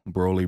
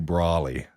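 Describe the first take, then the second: First: The first vowel sounds like 'oh'. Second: The first vowel sounds like 'aw'. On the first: The speaker calls it right. "It's Broly" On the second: The speaker calls it wrong. "when people call Broly Brawly"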